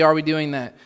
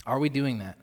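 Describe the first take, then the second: First: "are we doing that?" pushed louder; louder repeat. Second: Said in the usual way. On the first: Shown as a demonstration. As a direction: press the question harder.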